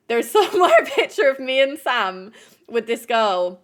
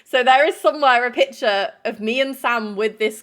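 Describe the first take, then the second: First: Real laugh breaking into the words; laughing through it. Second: Said in the usual way. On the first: Real, not acted. To viewers, repeating the photo story with a real laugh. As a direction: laugh as you repeat the line.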